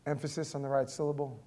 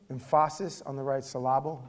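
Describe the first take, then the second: First: "right" hit firmly, quick delivery; stress on right. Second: "Emphasis" punched at the start; stress on emphasis. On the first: Pastor setting up a pun for the congregation, stressing "right". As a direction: lean on "right". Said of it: "with the emphasis on the right syllable". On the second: Pastor repeating the pun, stress moved to "Emphasis". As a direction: land hard on "Emphasis". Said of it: "It's a Drew joke". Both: Shown as a demonstration.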